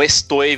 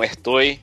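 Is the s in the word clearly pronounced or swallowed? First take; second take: clear; swallowed. First: The s is pronounced clearly. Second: The s is swallowed, Chilean style.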